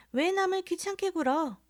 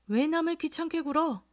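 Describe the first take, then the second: First: Put-on high, sing-song voice of a young lady, 왜 남을 귀찮게 굴어 with 남을 lifted; mock the lady's piping voice; mimicking a young woman. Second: Mimicking again. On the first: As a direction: drunk man mimicking the snooty young woman. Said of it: "정말 꾀꼬리 같은 소리를". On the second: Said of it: "꾀꼬리 같은 소리를".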